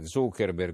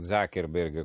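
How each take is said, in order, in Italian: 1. Il nome è detto con una pronuncia alla tedesca. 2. Il nome è detto con una pronuncia dell'inglese americano.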